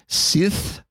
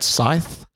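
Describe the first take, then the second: First: The word has a short 'i' vowel. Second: The word has a long 'eye' vowel. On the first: The speaker calls it wrong. "That's like Star Wars, isn't it?" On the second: The speaker calls it right. "I'm going to say scythe. Yeah, that sounds better"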